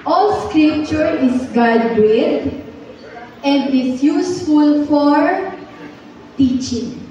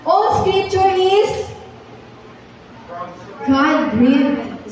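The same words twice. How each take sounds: First: Slow, drawn-out memory verse chant; slow group recitation. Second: Higher, slow, drawn-out verse; slow, higher memory verse chant; slow higher recitation. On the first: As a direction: recite each word slowly for the class to follow. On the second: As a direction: lift the opening and recite slowly. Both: Shown as a demonstration. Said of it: "sabay-sabay po tayong mag-memorize".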